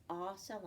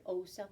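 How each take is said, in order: First: "ah" as the vowel starting octopus; short O sound. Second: "O" said as "oh", like its name; long O sound. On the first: Teacher giving O's first sound, short "ah". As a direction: open "ah" said on its own. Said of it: "makes the ah sound". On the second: Teacher giving O's second sound, long "oh". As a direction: give "O" its long "oh". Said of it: "or the O sound". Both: Shown as a demonstration.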